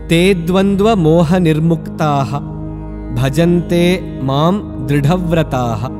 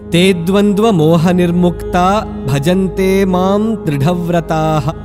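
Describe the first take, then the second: First: Nirmukta ends with a breathy h sound. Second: Nirmukta ends without a breathy h sound. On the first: The reciter pauses at the end of the line. "Visarga needs to be pronounced at the end of the pada if we are pausing" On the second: The line runs on without a pause. "Sometimes Visarga at the end of a pada gets eliminated"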